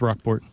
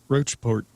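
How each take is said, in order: First: The first syllable sounds like 'rock'. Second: The first syllable sounds like 'roach'. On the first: The speaker calls it right. "but it's Rockport" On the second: The speaker calls it wrong. "People online like to say Ro- Roachport or something"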